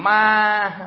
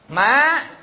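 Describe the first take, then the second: First: The syllable is said with a flat level tone. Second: The syllable is said with a rising tone. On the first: "không có dấu nào hết, thành ma" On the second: "chữ A bỏ dấu sắc"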